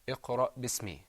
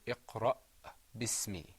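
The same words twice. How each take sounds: First: The glottal stop after iqra is left out. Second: The glottal stop after iqra is clearly pronounced. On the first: The speaker calls it wrong. "a tendency just to skip that letter" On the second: The speaker calls it right. "we want to hear you say"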